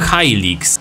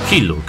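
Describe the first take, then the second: First: The first syllable sounds like 'high'. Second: The first syllable sounds like 'hill'. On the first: "ja zawsze wymawiałem Hilux" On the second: "ale to się mówi Hilux jakoś"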